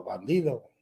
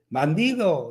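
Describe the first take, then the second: First: Lower, softer echo repeat; imitated echo. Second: Drawn-out call into a cave, mildly raised; half-hearted boy's shout; mock child's shout. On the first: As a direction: send the word back faintly, like a cave. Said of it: "y el eco". (eco imitado, más grave y flojo) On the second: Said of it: "di algo, grita algo". (grito fingido de niño, contenido)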